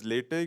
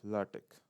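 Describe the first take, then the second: First: The word has an American English pronunciation. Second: The word has a German pronunciation. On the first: "It's pronounced as latex in American English" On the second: "in German sense, you pronounce it as uh, latex"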